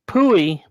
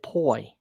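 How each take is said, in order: First: The name is read as spelled, P-U-I. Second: The name is said as one syllable, 'poy'. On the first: This is how the name is written. "it was Pui" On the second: This is how its owner said it. "she pronounced it Poi"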